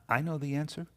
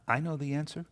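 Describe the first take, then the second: First: The voice sounds hesitant and unsure. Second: The voice sounds hesitant and unsure.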